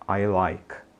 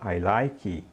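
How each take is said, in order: First: The word stops short on the final k. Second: An extra vowel sound follows the final k. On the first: The speaker calls it right. "diga I like" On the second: The speaker calls it wrong. "em vez de dizer"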